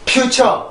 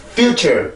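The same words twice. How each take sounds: First: "future" as a flattened pyu-cheo, no r colour; wrong Koreanized pronunciation. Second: "future" with r-coloured -cher; correct English pronunciation. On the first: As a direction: mistaken "future" ending in an open "cheo". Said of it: "이렇게 발음이 되는 게 아니고". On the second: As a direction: model "future", keeping -cher lightly stressed. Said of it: "이렇게 해서 발음을 해줘야 되죠". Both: Shown as a demonstration.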